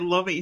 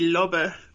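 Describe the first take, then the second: First: The name is said with an English pronunciation. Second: The name is said with a German pronunciation. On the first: This is the casual everyday way of saying it. "so I'm just going to say Lobby" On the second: This is how the name would properly be said. "It should be Lobbe, but, you know, he's not German"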